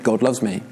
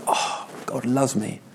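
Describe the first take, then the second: First: It is said casually, without much feeling. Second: It is said with amazed, heartfelt wonder.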